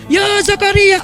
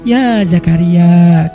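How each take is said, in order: First: It is shouted loudly. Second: It is said calmly, without shouting.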